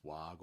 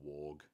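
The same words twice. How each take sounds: First: "warg" with an open "ah", as in far; first pronunciation of warg. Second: "warg" with an "aw" vowel, as in wart; alternative pronunciation of warg. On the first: Streamer offering chat one pronunciation, "warg" with an "ah". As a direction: say "warg" to rhyme with "Marg". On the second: Streamer offering chat the other pronunciation, "warg" as "worg". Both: Shown as a demonstration. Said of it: "I don't know if it's warg or warg".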